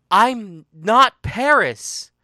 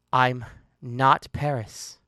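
First: "I'm not Paris" high, loud and slow; anguished loud denial. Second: "I'm not Paris" low and slow; slow, firm denial. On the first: She insists she isn't Paris, loud anguished denial. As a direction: cry out "I'm not Paris", every word drawn out. Emphatic repeated denial in a quarrel. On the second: She denies being Paris, low slow firm denial. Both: Acted.

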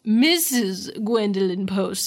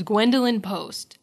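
First: "Missus" drawn out and emphasized, slow name; stress on Missus. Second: Said in the usual way. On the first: Retold or imitated. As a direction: lean hard and slowly on "Missus". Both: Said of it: "it was very emphasized".

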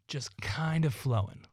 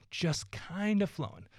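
First: Said in the usual way. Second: Lifted up, eased and airy; a softer, higher echo of "flowing". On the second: Shown as a demonstration. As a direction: float the words up gently.

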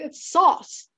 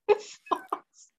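First: "sauce" said the ordinary way, with a plain aw vowel. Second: "sauce" drawn out higher, breathy, with an odd stretched vowel; mock sister's sauce. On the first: Mocking the sister by contrasting a plain "sauce" first. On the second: Teasing the sister's way of saying "sauce", high and breathy. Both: Shown as a demonstration. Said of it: "I don't say it like".

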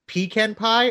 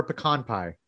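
First: "pecan" said PEE-can, stress first, short flat A; contrasting pronunciation. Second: "pecan" said puh-KAHN, stress on second syllable; contrasting pronunciation. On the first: Host offering Texas debate options, "pecan" as PEE-can. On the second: Host offering Texas debate options, "pecan" as puh-KAHN. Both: Shown as a demonstration. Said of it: "always that debate down here".

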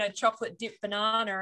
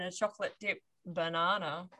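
First: Said in the usual way. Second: "banana" dropped lower after a small pause; insinuating. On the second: Shown as a demonstration. Host hinting at a second kind of banana, insinuating "banana". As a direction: say "chocolate dip banana" lower, as innuendo. Joke contrast of two bananas.

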